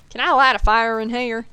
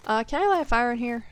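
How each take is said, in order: First: Exaggerated Southern accent. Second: Southern accent slipping out. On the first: Shown as a demonstration. Streamer repeats the line to show off her Southern accent. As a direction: lean into the Southern accent on purpose. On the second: Real, not acted. Streamer notices her Southern accent slipping out. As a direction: let a little Southern accent slip out as you ask. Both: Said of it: "my accent really popped out with that one".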